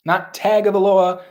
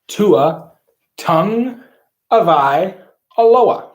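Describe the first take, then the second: First: Tagovailoa run together as four quick syllables, the usual wrong way. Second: Tua Tung Avai Aloha, said slowly with each part apart and punched; correct Tagovailoa. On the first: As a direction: rattle off Tagovailoa as ta-go-vai-lo-a. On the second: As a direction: spell out Tua Tung Avai Aloha piece by piece, higher and louder. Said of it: "I'll tell you how you say his last name". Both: Shown as a demonstration.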